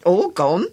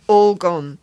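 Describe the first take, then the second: First: "All gone?" louder, rising in disbelief; the boy can't believe "All gone"; outraged question. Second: "All gone" dropped flat and louder, falling at the end; blunt. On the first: Acted. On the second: A narrator's reading. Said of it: "he replied bluntly".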